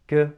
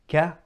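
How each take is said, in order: First: The k has almost no open vowel after it. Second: The k is followed by an open vowel. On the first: The speaker calls it wrong. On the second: The speaker calls it right.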